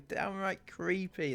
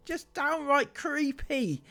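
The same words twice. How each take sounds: First: Said in the usual way. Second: "downright creepy" drawn out high and slow; stressed creepy. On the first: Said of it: "that's right". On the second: Real, not acted. Vlogger stressing her disgust at the comment, slowly. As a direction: lean hard on "downright creepy". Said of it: "Downright creepy, that's right".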